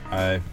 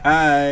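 First: It is said flatly, with little energy. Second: It is said brightly, with more energy.

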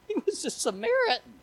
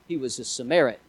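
First: It is said in a shocked, emphatic tone. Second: It is said in a plain, matter-of-fact tone.

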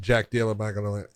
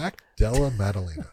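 First: The name is rushed out quickly and unclearly. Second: The name is said carefully and clearly. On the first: The speaker calls it wrong. "The first time you literally just spit it out. Say it fast so no one understands" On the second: The speaker calls it right. "Say the name properly"

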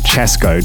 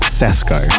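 First: The name starts with a 'ch' sound. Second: The name starts with an 's' sound. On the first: The speaker calls it right. "So you say Chesco" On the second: The speaker calls it wrong. "not Sesco"

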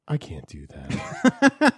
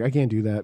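First: The pitch dips low, then comes back up. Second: The pitch stays flat and monotone.

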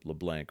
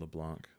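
First: The name has an Americanized pronunciation. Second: The name has a French-style pronunciation.

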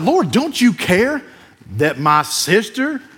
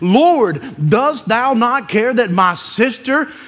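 First: It is said with a sassy, snippy tone. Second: It is read in a plain, neutral tone.

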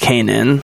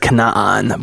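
First: The name is said in an anglicized way. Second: The name is said in a non-anglicized way. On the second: "The proper pronunciation"

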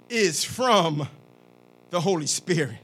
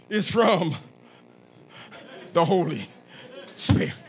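First: It is read in a plain reading voice. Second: It is said in a dramatic preacher voice.

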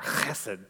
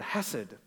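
First: The word starts with a rough throaty sound. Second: The word starts with a soft h sound. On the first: The speaker calls it right. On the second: The speaker calls it wrong.

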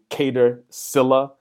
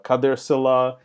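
First: The name is said with an English pronunciation. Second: The name is said with an Arabic pronunciation. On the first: The name is anglicized. The speaker calls it wrong. "It feels really, really weird saying Cater Silla" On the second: The name keeps its original form. The speaker calls it right. "it should be Khader Silla"

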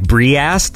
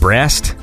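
First: The vowel is split into two syllables. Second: The word is said normally as one syllable. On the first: The speaker calls it wrong. "it wouldn't pronounce certain combinations of letters correctly" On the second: The speaker calls it right. "when you typed in the word breast"

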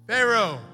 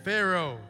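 First: It is said at a higher volume. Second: It is said at a lower volume.

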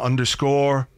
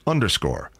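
First: The pitch stays up at the end, sounding unfinished. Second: The pitch falls at the end, sounding finished. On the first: Something else is still coming. The speaker calls it wrong. "Not underscore, because it sounds like there's something else coming" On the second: The list is complete. The speaker calls it right. "My intonation was wrong on that last underscore"

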